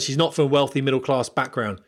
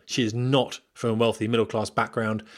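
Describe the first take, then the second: First: Said in the usual way. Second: "not" set apart with a short pause after it; emphatic "is not"; stress on NOT. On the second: Shown as a demonstration. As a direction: lean firmly on "not", then carry on. Repeats the line with emphasis.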